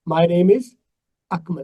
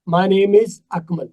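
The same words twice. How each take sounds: First: Akmal is set apart with a break. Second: The same.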